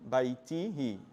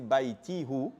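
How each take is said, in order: First: The final ending is pronounced as 'hi'. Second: The final ending is pronounced as 'hu'. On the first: The speaker calls it right. "it's easier to say" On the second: The speaker calls it wrong. "It's more difficult"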